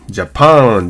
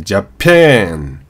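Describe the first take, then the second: First: The second vowel is a plain open 'ah'. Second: The second vowel sits between 'ah' and 'eh'. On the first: The speaker calls it wrong. "ジャパンじゃなくて" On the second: The speaker calls it right. "ジャパンのにこめのA っていうのはこのアメリカンA なんで"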